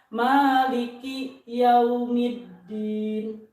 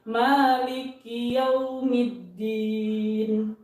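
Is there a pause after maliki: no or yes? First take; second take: yes; no. First: There is a short stop after maliki. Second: Maliki runs straight into yaumiddin without stopping. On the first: The speaker calls it wrong. "suka ada bisa dibilang saktah di situ" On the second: The speaker calls it right. "Jadi maliki yaumiddin"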